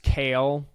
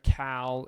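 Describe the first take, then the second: First: The vowel is long, as in pail. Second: The vowel is short, as in pal. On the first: The speaker calls it right. "it's Kale, like the salad" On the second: The speaker calls it wrong. "instead of Cal"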